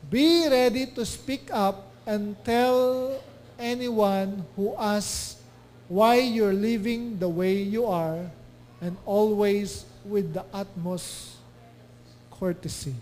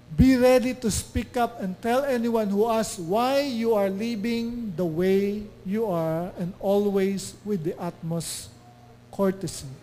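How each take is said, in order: First: Very slow, deliberate verse reading; slow scripture reading. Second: Slow, deliberate verse reading; scripture reading. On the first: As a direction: lean on each word of the verse. Reads scripture slowly. (napakabagal na pagbasa ng talata) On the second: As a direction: read the verse again, steady and measured. Rereads same verse. (mabagal na muling pagbasa ng talata) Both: Acted.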